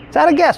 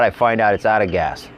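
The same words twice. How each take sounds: First: Incredulous repeat. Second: Said in the usual way. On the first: Real, not acted. Repeated in disbelief.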